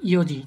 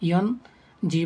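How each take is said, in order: First: It is shortened to two syllables. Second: It is said in full with three syllables. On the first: The speaker calls it right. "আমরা বলি ইয়োজি" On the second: The speaker calls it wrong. "ইয়ন জি বলি না"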